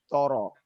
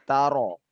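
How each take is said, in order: First: The first consonant is thick and heavy. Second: The first consonant is thin and light. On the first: The speaker calls it wrong. "Jangan sampai dia menjadi toro" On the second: The speaker calls it right. "huruf yang sebelumnya tipis"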